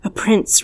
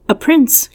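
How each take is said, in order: First: Calm. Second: A sharp, rising gasp of surprise; high and louder, astonished question. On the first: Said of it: "repeated my husband calmly". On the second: Party girls hearing of a royal guest, gasping in surprise. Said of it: "gasped the girls in surprise". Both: A narrator's reading.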